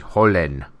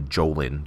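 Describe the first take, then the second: First: The name is pronounced in a fancier, foreign-sounding way. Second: The name is pronounced plainly, anglicized. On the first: "I don't want to pronounce it all fancy" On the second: "I'm just going to call him Jolin"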